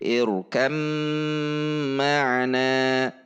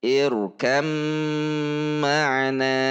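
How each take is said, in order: First: The b merges fully into a doubled m. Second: The same.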